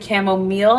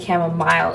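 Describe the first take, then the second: First: The last syllable sounds like 'meal'. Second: The last syllable sounds like 'mile'. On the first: "then spell the word meal" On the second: "spell it how it's actually spelled"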